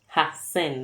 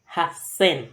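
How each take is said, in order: First: The word begins with a short 'ha'. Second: The word begins with a short 'ha'.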